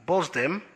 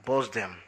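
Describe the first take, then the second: First: "Buzz them?" pitched higher with a rising question; incredulous echo. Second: Said in the usual way. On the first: Acted. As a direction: throw the words back in disbelief. Arthur echoes in disbelief.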